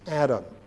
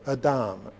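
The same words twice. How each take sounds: First: The name is pronounced the English way. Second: The name is pronounced the Hebrew way.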